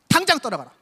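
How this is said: It is said harshly and fiercely.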